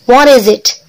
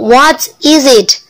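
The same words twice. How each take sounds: First: The words run together into one linked chunk. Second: Each word is said separately, without linking. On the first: "kalau kita gabung semuanya menggunakan pronunciation" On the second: "Kalau kita patah-patahkan"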